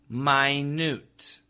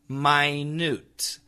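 Both takes have the same delivery.

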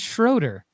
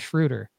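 First: The name is said the American way. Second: The name is said the European way. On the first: "the American way to pronounce Dennis Schroeder is Schroeder" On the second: "the European pronunciation is actually Schroeder"

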